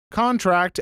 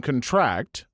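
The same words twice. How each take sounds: First: CONtract, weight on the first syllable; stress on first syllable. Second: ConTRACT, weight on the second syllable; stress on last syllable. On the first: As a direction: punch the CON in contract. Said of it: "Stress on the first syllable". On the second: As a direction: lean on the TRACT in contract. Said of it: "Stress on the last syllable". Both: Shown as a demonstration.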